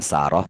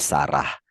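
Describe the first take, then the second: First: The name ends with an 'oh' sound. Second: The name ends with an 'ah' sound. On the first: This is not how we usually say the name. "Kalau kita bilangnya bukan Saroh" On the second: This is how we usually say the name. "tapi Sarah"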